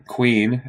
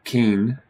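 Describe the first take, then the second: First: Queen said with a clear kw sound; pron. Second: Keen said with a plain k, no w; pron. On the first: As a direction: say queen as kween, with the w. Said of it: "or queen instead of k". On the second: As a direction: say keen, the wrong k-only way. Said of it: "queen instead of k". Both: Shown as a demonstration.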